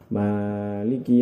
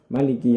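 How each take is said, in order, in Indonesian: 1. Vokal setelah huruf m dibaca panjang. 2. Vokal setelah huruf m dibaca pendek. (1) "terdapat alif setelah huruf mim, jadi dibaca panjang" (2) "tanpa alif setelah huruf mim, jadi dibaca pendek"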